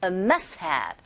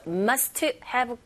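First: "a must have" said as "a mus-have", t dropped; "a must have" with the middle consonant swallowed; dropped-t pronunciation. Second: "must have" with a vowel added after t, "must-uh hab"; Koreanized "must have", every consonant released; wrong demo of must have. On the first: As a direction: link "a must have" with no audible t. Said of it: "두 번째 자음 소리가 잘 안 들리게끔". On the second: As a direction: fully sound the t in "must have" as its own syllable. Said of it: "must have 하지 마시고". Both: Shown as a demonstration.

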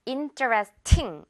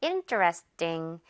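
First: Interesting with a clear, aspirated 팅; interesting ending on a crisp, weighted T; wrong airy ending. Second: Interesting slowly and lower, last syllable a weak 띵; Interesting front-stressed, with a tight T; ending like 띵. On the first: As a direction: stress the final ting of interesting with a puff of air. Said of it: "이렇게 하지 말고요". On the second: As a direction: drop the end of Interesting into an unaspirated 띵. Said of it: "약간 띵에 훨씬 가깝게". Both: Shown as a demonstration.

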